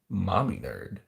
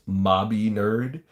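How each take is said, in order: First: The first word has an 'm' sound in the middle. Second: The first word has a 'b' sound in the middle. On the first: The speaker calls it wrong. "I get so mad when people call me mommy nerd" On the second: The speaker calls it right. "it's it's it's uh it's mobby nerd"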